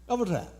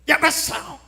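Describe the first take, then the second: First: It is said lazily, as if chewing gum. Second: It is said in a sharp, shrill voice.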